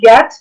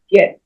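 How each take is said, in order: First: The vowel is drawn out long. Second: The vowel is clipped short. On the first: The speaker calls it wrong. "It's not get" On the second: The speaker calls it right. "but get... Short sounds"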